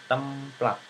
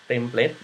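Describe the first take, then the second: First: The word has an Indonesian pronunciation. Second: The word has an English pronunciation. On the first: This is the word as absorbed into Indonesian. "sekarang template itu sudah diserap menjadi bahasa Indonesia ya" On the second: This is the foreign source word. "kan dalam bahasa Inggris ya itu ya template-nya"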